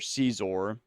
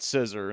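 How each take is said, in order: First: It sounds like the name Caesar. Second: It sounds like the word scissor. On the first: It is a childhood way of saying it. "as I used to say when I was younger" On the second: It is an odd way of saying it. "I definitely don't call it Scissor. That's just weird"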